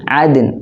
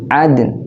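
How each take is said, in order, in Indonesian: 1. Kata ini berakhir dengan bunyi n yang ringan. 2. Kata ini berakhir dengan bunyi n yang ringan.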